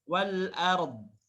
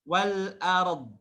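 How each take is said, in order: No difference in how they are said.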